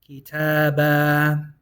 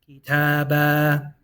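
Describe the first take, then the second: Both takes have the same delivery.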